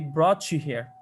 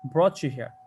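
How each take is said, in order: First: The t and y blend into one sound. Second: The t and y blend into one sound.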